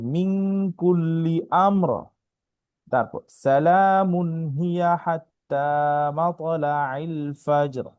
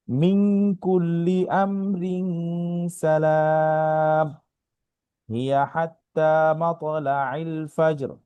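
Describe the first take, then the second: First: It pauses after amr, then runs on through salamun. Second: It runs on through amr, pausing after salam.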